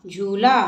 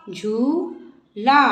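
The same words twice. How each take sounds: First: Said in the usual way. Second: झूला with the ऊ held very long, slow; long ऊ drawn out. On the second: Shown as a demonstration. Teacher modelling the long ऊ sound, slowly. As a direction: drag out the ऊ in झूला. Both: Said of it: "बड़े ऊ की मात्रा".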